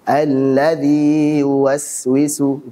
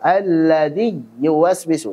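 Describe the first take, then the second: First: The long i is an open, pure vowel. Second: The long i is squeezed like a y consonant. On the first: The speaker calls it right. "Itu yang benar" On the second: The speaker calls it wrong.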